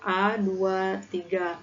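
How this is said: The two digits are read separately, apart. The speaker calls it right. "tapi dipisah bilangnya"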